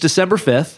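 It is said firmly and with confidence. The speaker states the date as a fact. The speaker calls it right.

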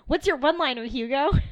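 It is said in an excited, lively tone.

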